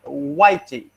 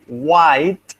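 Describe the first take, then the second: First: Portuguese accent. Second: Said in the usual way. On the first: Shown as a demonstration.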